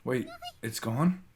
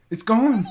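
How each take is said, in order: First: Said in the usual way. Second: "It's gone!" shouted much higher and louder, falling on "gone"; alarmed shout. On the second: Acted. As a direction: cry out in dismay. Realises charm is lost.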